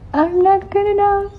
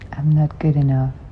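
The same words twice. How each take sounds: First: It is said in a higher pitch. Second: It is said in a normal pitch.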